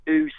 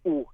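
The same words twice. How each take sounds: First: Long "oo" as spelt E W; Mackem oo. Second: Short "oo" as in standard book. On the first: Dialect expert explaining the E W spelling, long Mackem "oo". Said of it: "to give you that oo sound". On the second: Dialect expert contrasting with Mackem, short standard "oo". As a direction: sound "oo" short, not like E W. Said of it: "rather than, uh, than oo sound". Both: Shown as a demonstration.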